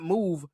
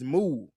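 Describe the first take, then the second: First: The final consonant of the word is pronounced. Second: The final consonant of the word is dropped. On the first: The speaker calls it wrong. "It's not move" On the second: The speaker calls it right. "they don't say the last syllable at all"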